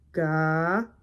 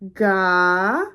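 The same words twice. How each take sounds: First: The syllable is said on a level low tone. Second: The syllable is said with a rising pitch. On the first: "A low tone would be" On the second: "a rising tone would be"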